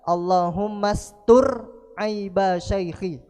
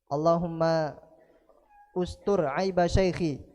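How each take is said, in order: First: The verb runs straight on from 'Allahumma'. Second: The verb starts separately with its own 'u' vowel.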